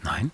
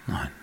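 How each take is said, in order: First: NEIN with a rising question tune. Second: NEIN as a short statement, no rise; confirming. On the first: Narrator asking his neighbour back, NEIN rising in question. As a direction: lift the end of NEIN as a question. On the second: Neighbour answering the narrator, NEIN without a question rise. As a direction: close NEIN off as a firm answer. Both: A narrator's reading.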